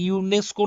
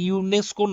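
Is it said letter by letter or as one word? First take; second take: one word; one word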